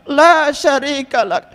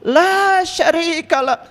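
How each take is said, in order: No difference in how they are said.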